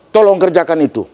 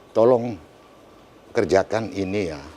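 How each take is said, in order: First: It is said loudly and forcefully, Batak style. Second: It is said gently, in a Bengkulu manner.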